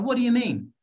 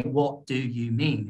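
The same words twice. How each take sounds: First: "What do you mean" linked quickly into one higher-pitched chunk; natural chunking. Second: "What do you mean" slow, word by separate word; robotic, unchunked. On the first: Teacher showing confident natural speech, "What do you mean" linked up. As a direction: run "What do you mean" together, lifted and fluent. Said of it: "things is like chunking". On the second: Teacher warning against robot speech, "What do you mean" slow and unlinked. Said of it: "don't wanna speak like a robot". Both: Shown as a demonstration.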